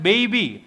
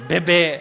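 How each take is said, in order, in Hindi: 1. यह शब्द 'ee' ध्वनि से खत्म होता है। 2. यह शब्द 'eh' ध्वनि से खत्म होता है। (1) "ये ये बोला जाता है बेबी" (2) "ऐसे यूं नहीं, ये नहीं होता है"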